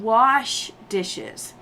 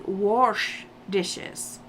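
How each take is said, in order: First: Wash is said in the common way. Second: Wash is said the way the relatives say it. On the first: "they don't wash dishes" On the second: "They wash dishes. ... it is so hard to, to listen to it"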